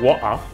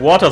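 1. Das T in der Mitte wird verschluckt. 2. Das T in der Mitte wird deutlich ausgesprochen. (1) "Das ist britischer Akzent, die verschlucken immer das T" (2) "Nicht Water"

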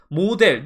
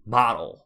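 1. 한국식 억양으로 발음됩니다. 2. 원어민 영어 억양으로 발음됩니다. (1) "누가 원어민이 이렇게 소리내요?" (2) "model 이렇게 소리를 냅니다"

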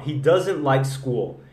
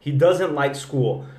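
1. 'School' começa direto com o som do s. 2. 'School' começa direto com o som do s.

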